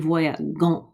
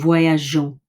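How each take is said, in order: First: The g sounds hard, like the g in go. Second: The g sounds soft, like the s in measure. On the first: The speaker calls it wrong. "it would be voyagons, and that wouldn't sound very well" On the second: The speaker calls it right. "because I've kept this E here"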